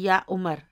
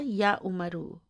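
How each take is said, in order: First: The name ends without its final vowel. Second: The name ends with a final u vowel. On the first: The sentence comes to a pausal stop here. "अगर मैं इधर वक्फ करूंगी तो मैं कहूंगी" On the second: The grammatical case ending is shown clearly. "मैं जानबूझकर वक्फ नहीं कर रही हूं"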